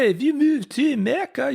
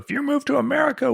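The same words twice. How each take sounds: First: It is said in a put-on French accent. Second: It is said in the speaker's ordinary accent.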